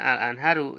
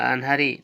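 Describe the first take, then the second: First: The word ends with the vowel u. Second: The word ends with the vowel i. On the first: The noun is in the nominative case. "marfu'nya al-anharu ya tandanya doma" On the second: The noun is in the genitive case. "majrurnya al-anhari tanda majrurnya kasroh"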